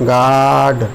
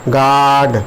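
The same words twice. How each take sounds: The two takes are said the same way.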